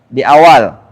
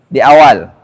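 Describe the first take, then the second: The two takes are said the same way.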